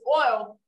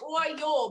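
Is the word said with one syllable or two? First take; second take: one; two. First: It is said the Southern way, in one syllable. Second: It is said the Northern way, in two syllables.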